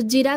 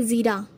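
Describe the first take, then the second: First: जीरा with j and short i, "jira"; wrong form. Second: ज़ीरा with z and long ee, "zeera"; correct form. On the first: Teacher rejecting the wrong word, जीरा with j. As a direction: start जीरा with a j sound. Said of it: "कुछ नहीं होता". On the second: Teacher giving the correct word, ज़ीरा with z. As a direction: buzz the z and hold ee in ज़ीरा. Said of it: "ये होता है". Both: Shown as a demonstration.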